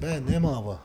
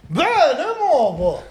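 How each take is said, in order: First: It is said flat, with little expression. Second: It is said lively, with strong expression. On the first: The listener is left confused. The speaker calls it wrong. "if you said ben nemaba, you know, somebody's just going to kind of look at you like, what is he talking about" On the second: The listener's attention is captured. The speaker calls it right. "But if you take the attention of the person"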